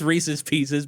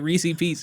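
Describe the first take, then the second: First: Both words are said in full. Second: The name is clipped to two short syllables. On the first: The speaker calls it right. "I know it's Reese's Pieces" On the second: The speaker calls it wrong. "but I say Reese P"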